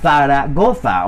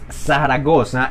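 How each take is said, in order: First: The z is pronounced like a th sound. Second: The z is pronounced like an s sound. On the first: This is the pronunciation the speaker does not use. "y no" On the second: This is the speaker's own seseo pronunciation. "yo digo entonces"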